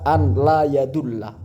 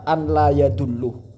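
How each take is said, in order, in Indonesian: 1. Kata kerjanya berakhir dengan vokal 'a'. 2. Kata kerjanya berakhir dengan vokal 'u'. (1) "seharusnya dibaca ... karena ada huruf an" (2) "Naufal Haris ini kan membaca"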